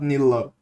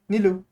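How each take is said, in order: First: The name ends with an "oh" vowel. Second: The name ends with an "oo" vowel. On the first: This is the form the speaker rejects. The speaker calls it wrong. "Not Nilo" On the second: This is how the speaker's own language says it. The speaker calls it right. "if I want to pronounce it in my own language"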